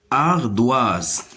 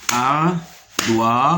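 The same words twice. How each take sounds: First: Said in the usual way. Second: "Ardoise" split into slow syllables, ar-doi-se; découpage syllabique. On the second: Shown as a demonstration. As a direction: break "Ardoise" into three separate beats with pauses. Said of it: "se compose de trois syllabes". (« Ardoise » découpé lentement : ar… doi… se)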